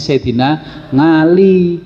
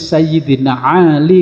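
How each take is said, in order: First: Ali begins with a Central Javanese 'ng' sound. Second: Ali begins with a plain vowel sound.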